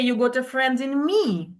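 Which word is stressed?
me. The stress falls on the word me. I, not someone else, am going to be the friend. "So it means I am going to be a friend, not uh, someone else"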